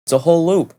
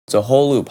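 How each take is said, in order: First: Said higher, as a sing-song aside to viewers; high first take. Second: Said in the usual way. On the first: Real, not acted. Repeating the point to viewers, high and light.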